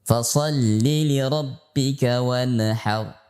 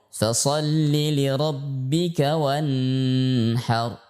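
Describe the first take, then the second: First: The n in wanhar has an echo bounce. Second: The n in wanhar is droned nasally. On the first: "dibaca dengan pantulan, maka ini tidak boleh" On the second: "dibaca dengan mendengung"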